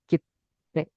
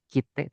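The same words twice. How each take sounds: First: "kite" as kit, silent stop, te; doubled consonant. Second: Said in the usual way. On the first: Shown as a demonstration. Teacher corrects single t, doubled consonant. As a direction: hold the t in "kite" before releasing it, slowly. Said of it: "kayak double gitu loh". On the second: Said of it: "Jadi bukan kite".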